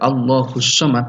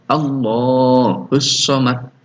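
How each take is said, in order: First: The vowel in Allah is held briefly. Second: The vowel in Allah lasts two beats. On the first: The speaker calls it wrong. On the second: The speaker calls it right. "dua ketukan"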